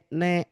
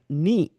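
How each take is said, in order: First: The vowel is an unclear 'e' sound. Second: The vowel is a clear 'i' sound. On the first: The speaker calls it wrong. "bukan ne" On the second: The speaker calls it right. "mesti jelas bunyi i-nya"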